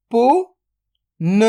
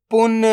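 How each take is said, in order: First: "पुन" split into पु, then न, very slow; drawn-out breakdown of "पुन"; sound by sound. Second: Said in the usual way. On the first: Shown as a demonstration. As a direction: sound out पु ... न with a long gap. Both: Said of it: "तो मिलके बन जाएगा".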